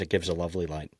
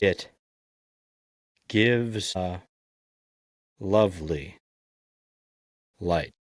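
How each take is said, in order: First: The line is read quickly as one string. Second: The line is read slowly, word by word. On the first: "So that's the fast version" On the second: "Now I'm going to do the slow version"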